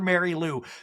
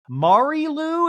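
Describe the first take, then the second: First: The name is said with an English pronunciation. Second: The name is said with a French pronunciation. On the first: The speaker calls it wrong. "mispronounces it and calls her Mary Lou" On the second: The speaker calls it right. "is how you say it"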